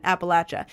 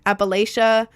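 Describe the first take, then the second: First: "Appalachia" as locals say it, "apple-atch-uh"; accented local "Appalachia", "latch-uh"; native pronunciation. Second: "Appalachia" with a long A, "lay-shuh"; technical pronunciation. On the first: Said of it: "'cause most people have the accent". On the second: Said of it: "technically called". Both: Shown as a demonstration.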